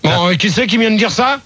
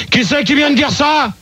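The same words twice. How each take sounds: First: Said in the usual way. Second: Higher, insistent repeat of the question; real irritated challenge; angry demand. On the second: Real, not acted. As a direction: demand to know who spoke, voice raised in pitch. Host repeats demand, angrier.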